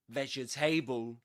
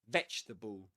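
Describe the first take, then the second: First: It is said with four full syllables. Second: It is said with three syllables. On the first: The speaker calls it wrong. "You don't say that" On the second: The speaker calls it right. "You don't pronounce this letter"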